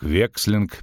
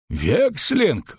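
First: Said in the usual way. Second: High-pitched, shocked exclamation; innkeeper's startled cry at moderate volume; cried out. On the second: A narrator's reading. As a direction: exclaim it in alarm, pitch jumping up. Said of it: "выкрикнул трактирщик".

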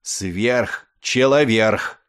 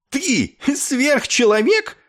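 First: «Сверхчеловерх» very slowly, ending in -верх; correcting the word. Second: High, drawn-out incredulous question; indignant disbelief. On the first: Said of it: "поправил его Ессариан". (медленно, по частям: «Сверхчеловерх», с «-верх» на конце) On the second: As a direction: throw it back in outrage. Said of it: "вскинулся Клевенджер". (высоко, с возмущённым изумлением) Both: A narrator's reading.

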